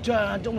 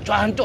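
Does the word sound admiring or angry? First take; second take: admiring; angry. First: It is said in an admiring, friendly tone. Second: It is said in a harsh, angry tone. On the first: The speaker is praising someone. "jancuk itu kagum" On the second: The speaker is picking a fight. "Tapi kalau jancuk itu bisa berantem. Lihat intonasinya"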